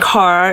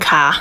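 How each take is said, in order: First: It is said in a standard American accent. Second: It is said in a Boston accent.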